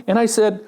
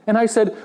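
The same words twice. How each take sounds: The two takes are said the same way.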